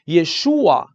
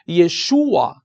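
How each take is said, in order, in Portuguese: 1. A tonicidade cai na segunda sílaba, 'shu'. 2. A tonicidade cai na segunda sílaba, 'shu'.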